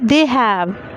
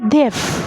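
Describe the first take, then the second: First: It is said as two full words. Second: It is said as one contracted syllable. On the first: "it's not a contracted form" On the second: "it's a contracted form"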